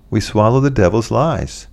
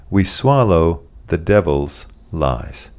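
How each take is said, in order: First: Said in the usual way. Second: Slow, weighty. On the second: Shown as a demonstration. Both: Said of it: "repeated line".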